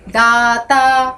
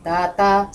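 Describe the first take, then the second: First: "दाता" with both vowels stretched long and level; long, sustained "दाता"; meaning by intonation. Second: Short "दाता", let down gently; compact, subdued "दाता"; meaning by intonation. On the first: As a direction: hold each syllable of "दाता" very slowly. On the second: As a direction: keep "दाता" brief and unemphatic. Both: Shown as a demonstration. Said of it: "सबके अलग अर्थ हैं".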